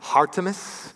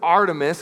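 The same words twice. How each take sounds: First: The word begins with a breathy H sound. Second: The word begins directly with the vowel.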